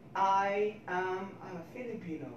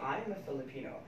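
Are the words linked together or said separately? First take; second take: separately; linked. First: Each word is said separately with equal emphasis. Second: The words are linked together smoothly and quickly. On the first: This is how Filipinos tend to say it. "each of the word in our sentences is very clear" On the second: This is the relaxed English way to say it. "in English you say"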